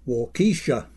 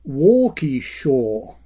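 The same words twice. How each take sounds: First: It is said the way an outsider says it. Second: It is said the way local residents say it. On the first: The speaker calls it wrong. "my attempt, which was something like" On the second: The speaker calls it right. "pronounced by locals as"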